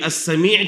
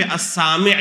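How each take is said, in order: First: السمیع said as as-Samee', long ee at the end; short "sa", long "mee" in السمیع; careful as-Sa-MEE'; correct form. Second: السامع said as as-Saami', long aa and short i; as-SAA-mi' with the weight up front; altered form. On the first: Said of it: "کی جگہ پہ السامع کہے". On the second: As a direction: lengthen the first vowel of السامع. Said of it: "السمیع کی جگہ پہ". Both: Shown as a demonstration.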